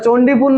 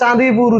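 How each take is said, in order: First: It is said as Chondipur with an 'o' vowel. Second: It is said as Chandipur with an 'a' vowel. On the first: The speaker calls it wrong. "ওটা চণ্ডীপুর নয় রে" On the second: The speaker calls it right. "ওটা চাঁদিপুর উচ্চারণ"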